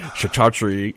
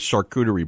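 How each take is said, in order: First: It is said with three syllables, starting 'ka'. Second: It is said with four syllables, starting 'shar'. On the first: The speaker calls it wrong. "after calling it kachatri or whatever I've called it" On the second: The speaker calls it right. "can pronounce that correctly"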